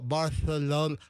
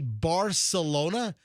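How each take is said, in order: First: The c is said as a lisped th sound. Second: The c is said as a plain s sound. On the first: "The Spanish, they go Barcelona" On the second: "like we'll say Barcelona"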